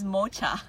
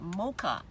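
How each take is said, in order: First: Mocha said as "MOH-chuh"; mocha with "ch" in place of "k"; dad's mispronunciation. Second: Said in the usual way. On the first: Retold or imitated. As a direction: imitate dad's mocha with a "ch" as in chair. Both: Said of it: "he says mocha".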